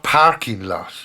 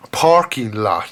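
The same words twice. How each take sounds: First: "parking lot" with an Irish A vowel. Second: "parking lot" with a broad American aw vowel. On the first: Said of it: "not parking lot". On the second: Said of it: "pronunciation of the letter A ... aw sound". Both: Shown as a demonstration.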